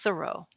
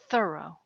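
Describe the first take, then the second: First: The stress is on the second syllable. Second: The stress is on the first syllable. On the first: The speaker calls it wrong. "with the accent on the second syllable" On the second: The speaker calls it right. "the right way to say the guy's name"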